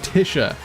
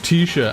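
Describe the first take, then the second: First: The first syllable sounds like tissue. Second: The first syllable does not sound like tissue. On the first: The speaker calls it right. "Like tissue paper" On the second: The speaker calls it wrong. "And they're like"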